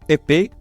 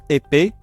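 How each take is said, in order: The two takes are said the same way.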